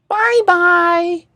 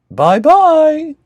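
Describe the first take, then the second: First: It is said in a high, squeaky voice. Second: It is said in a medium-pitched voice.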